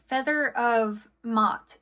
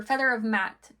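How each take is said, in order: First: "Mot" with an open ah vowel; Mot with short o. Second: "Matt" with the a of cat; Matt with short a. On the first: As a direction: say "Mot" to rhyme with hot. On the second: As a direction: say "Matt" to rhyme with hat. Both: Shown as a demonstration. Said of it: "not sure how it's pronounced".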